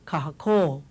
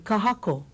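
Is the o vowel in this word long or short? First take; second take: long; short. First: The o vowel is lengthened. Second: The o vowel is short. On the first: "instead of kahako" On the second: "if we didn't have that, it would have been kahako"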